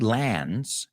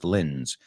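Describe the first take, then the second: First: The last syllable has a full 'a' vowel. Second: The last syllable has a short reduced vowel. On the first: The speaker calls it wrong. "We don't say lands" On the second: The speaker calls it right. "en este caso es lins"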